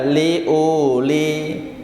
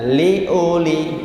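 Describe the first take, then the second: First: The vowel is held long. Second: The vowel is kept short. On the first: The speaker calls it wrong. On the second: The speaker calls it right.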